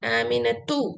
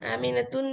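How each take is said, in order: First: The word ends on a plain u vowel. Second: The word ends with an added n sound. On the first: The speaker calls it right. "तू बम्मा, आमिनतु" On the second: The speaker calls it wrong. "आमिनतुन नहीं"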